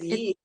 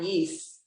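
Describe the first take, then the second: First: The word ends with a T sound. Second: The word ends with an S sound. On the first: The speaker calls it right. "Just a T, no S" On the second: The speaker calls it wrong.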